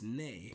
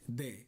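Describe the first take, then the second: First: The word begins with an N sound. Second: The word begins with a D sound. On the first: The speaker calls it right. "it's actually an N sound" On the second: The speaker calls it wrong. "with a D"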